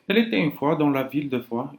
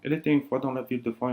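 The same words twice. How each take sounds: First: It is said at a slower pace. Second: It is said as fast as possible.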